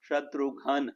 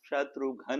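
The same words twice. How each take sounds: First: The u is light and ghn is dropped. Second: The u is light and ghn is dropped.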